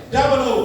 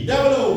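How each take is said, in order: No difference in how they are said.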